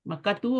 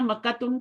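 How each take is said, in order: First: The word ends on a plain vowel. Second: The word ends with an added n sound. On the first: The speaker calls it right. "मक्कातू होता है" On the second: The speaker calls it wrong. "मक्कातुन तो नहीं होता ना"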